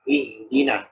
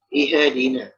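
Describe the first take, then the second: First: The h sound flows softly without a bounce. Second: The h sound is stopped with a bounce. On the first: The speaker calls it right. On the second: The speaker calls it wrong.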